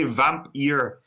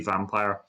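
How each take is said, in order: First: The word ends with a sound like 'ear'. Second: The word ends with a sound like 'fire'. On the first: This follows the original spelling of the name. "you should say vamp ear. It's the Hungarian way" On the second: This is the easier everyday way to say it. "vampire is easier for everybody, so we just say vampire"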